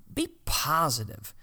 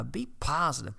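First: Be positive stressed a little louder; urging be positive; emphatic. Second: Said in the usual way. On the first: Shown as a demonstration. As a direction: punch be positive.

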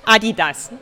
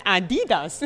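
First: Adidas, louder, stressed on the first syllable; German pronunciation. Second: Adidas as Americans say it, stress on DI; imitated American pronunciation. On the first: Shown as a demonstration. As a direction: demonstrate Adidas the German way, AH-dee-das. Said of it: "Do you know how we say it". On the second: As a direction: mimic the US uh-DEE-das. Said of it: "how we say it in the U S".

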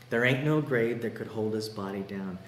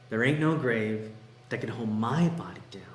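First: Said in the usual way. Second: "my" leaned on within the lyric; stress on my. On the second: Acted. Preacher quoting song's switch to first person, stressing "my". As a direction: make "my" the word that stands out. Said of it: "then it switches to say this".

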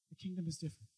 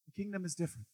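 First: Softer repeat. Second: Soft emphasis. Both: Acted. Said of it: "this, you live in the kingdom".

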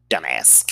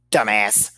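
First: Dumbass, dropped low and falling, slow and scornful; "dumbass" said low with a falling, contemptuous end. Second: Dumbass, clipped out as a final verdict after a pause; "dumbass" spat out as a flat, firm closing word; blunt dumbass. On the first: To the absent ex, a low scornful dumbass. Insulting him to the camera. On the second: To the camera about the ex, a firm dumbass. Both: Real, not acted.

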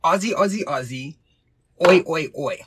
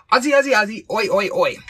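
First: Measured chant of the code word; code word demo. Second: Loud, high rallying chant; calling out. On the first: Shown as a demonstration. Host teaches assistant the code word, chanted demo. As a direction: demonstrate a call-and-response cheer. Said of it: "the code word will be". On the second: Pretend. Host summons assistant with the code word, calling out. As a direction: shout it like a stadium cheer.

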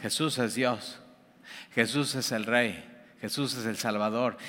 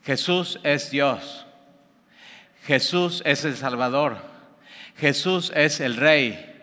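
First: Softer repeat, like an echo; quieter echo. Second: Slow, deliberate declaration; slow proclamation. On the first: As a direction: answer back more softly, as an echo. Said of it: "y es un eco". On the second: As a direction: announce each phrase slowly, with weight. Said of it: "Pablo llega y ¿qué dice?". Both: Retold or imitated.

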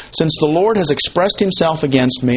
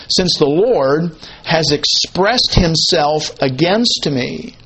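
First: Said in the usual way. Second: Slow, drawn-out LORD and AGAINST with pauses between phrases; weighty quotation. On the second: Acted. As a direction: weigh out "Lord", "expressed himself" and "against" slowly. Slow emphatic rendering of verse.

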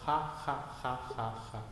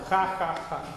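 First: Soft, lower, fading spoken laugh. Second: Firm, fuller spoken ha ha ha; louder ha ha. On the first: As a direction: barely voice the ha ha, fading away. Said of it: "you begin laughing". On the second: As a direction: push the ha ha out with more voice. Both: Shown as a demonstration.

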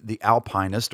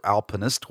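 First: "Alpinist" with a long i, like "alpine-ist"; alternative pronunciation. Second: "Alpinist" with a short middle i; alternative pronunciation. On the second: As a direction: say "Alpinist" as AL-pin-ist. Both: Shown as a demonstration. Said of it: "however you wanna pronounce it".

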